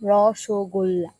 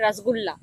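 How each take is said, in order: First: The middle vowel sounds like 'o'. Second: The middle vowel sounds like 'u'. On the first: This is how Bengalis say it. The speaker calls it right. "আমাদের এটার নাম রসগোল্লা" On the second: This is how non-Bengalis say it. The speaker calls it wrong. "যারা নন Bengali আছে অনেকে আসে, ওরা বলে রসগুল্লা। ওটা ওরা ভুল বলে"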